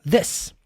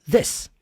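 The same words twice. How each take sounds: Both takes have the same delivery.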